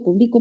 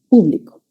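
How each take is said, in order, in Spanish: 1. El acento está en la sílaba del medio. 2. El acento está en la primera sílaba. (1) "esa sería una palabra grave" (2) "Esa es esdrújula"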